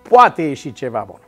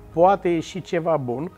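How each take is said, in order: First: It is said as a confident, emphatic exclamation. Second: It is said as a questioning, doubtful phrase. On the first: Something good is confidently expected. The speaker calls it right. "Ele trebuie să sune așa" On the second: Something good is doubted and hope is lost. The speaker calls it wrong. "A pune semnul întrebării, poate ieși ceva bun, este de fapt expresia disperării"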